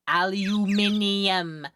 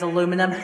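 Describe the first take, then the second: First: It is said as five syllables, British style. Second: It is said as four syllables, American style. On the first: The speaker calls it right. "You say it as aluminium" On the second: The speaker calls it wrong. "you made me say it the American way"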